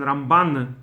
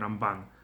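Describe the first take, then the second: First: The stress is on the last syllable. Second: The stress is not on the last syllable. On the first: The speaker calls it right. "on stress on the last syllable" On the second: The speaker calls it wrong. "They don't say Rambam and Ramban"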